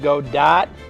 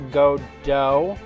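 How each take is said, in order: First: The final t is sounded. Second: The final t is silent. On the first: The name is read the way it is spelled. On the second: This is the name's proper pronunciation.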